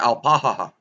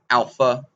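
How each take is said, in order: First: The word is said with three syllables. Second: The word is said with two syllables. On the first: This is the old name. "It was alpaha" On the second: This is the modern name. "It's called alpha now"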